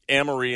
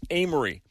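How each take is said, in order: First: "Amory" with a short first a, as in "am"; mispronounced Amory. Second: "Amory" with a long first a, as in "aim"; local pronunciation of Amory. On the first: FEMA worker on a later question, mispronouncing Amory. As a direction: open "Amory" on the vowel of "cat". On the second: Resident correcting for future reference, local pronunciation of Amory. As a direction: open "Amory" on the vowel of "day". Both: Retold or imitated. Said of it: "it's pronounced Amory".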